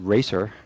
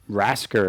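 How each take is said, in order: First: The name is said without a K sound. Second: The name is said with a K sound. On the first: This is how some other people say the name. "Some people people pronounce it Racer" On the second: This is the speaker's preferred way; it sounds like rascal. "I always like Rasker because it's like you rascal"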